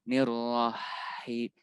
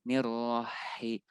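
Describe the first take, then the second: No difference in how they are said.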